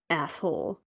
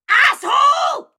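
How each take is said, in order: First: The word is muttered quietly under the breath. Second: The word is said loudly and clearly. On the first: The insult is muttered as an aside. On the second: The insult is said openly to the listener.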